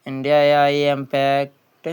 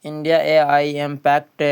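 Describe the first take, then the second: No difference in how they are said.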